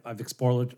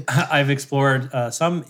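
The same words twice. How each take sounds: First: Said in the usual way. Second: Slow, laughing through the words; laughing retake. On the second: Shown as a demonstration. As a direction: laugh it out slowly on the retry. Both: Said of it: "try that again".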